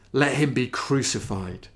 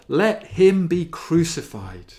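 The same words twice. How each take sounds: First: Said in the usual way. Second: The cry of the crowd, raised higher and louder; a preacher voicing the shouting crowd. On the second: A narrator's reading. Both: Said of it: "they shouted all the more".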